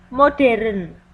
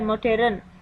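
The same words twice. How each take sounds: First: The word is said with three syllables. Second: The word is said with two syllables. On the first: This is the nonstandard form. The speaker calls it wrong. "kosakata tidak baku" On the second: This is the standard form. The speaker calls it right. "kosakata baku"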